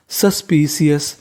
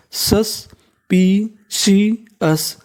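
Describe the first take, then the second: First: Said in the usual way. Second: suspicious drawn out very slowly, final s held; very slow stretched word. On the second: Shown as a demonstration. (Suspicious बहुत धीरे खींचकर) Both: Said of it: "एसयूएस का मतलब होता है सस".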